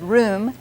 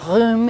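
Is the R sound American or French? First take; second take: American; French. First: The R is said as an American R. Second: The R is said as a French R. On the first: "the R sound of American English" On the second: "say room instead of room"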